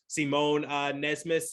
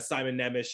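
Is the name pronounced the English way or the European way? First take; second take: European; English. First: The name is said with a European pronunciation. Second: The name is said with an English pronunciation. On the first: "I've been hearing" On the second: "the English version is"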